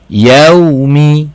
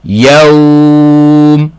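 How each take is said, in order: First: The word ends with a short final vowel. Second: The word ends in a consonant, vowel lengthened. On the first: The reading continues into the next word. "kalau kita baca wasal, baca sambung" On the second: The reading stops at this word. "Kita kena baca panjang kalau berhenti"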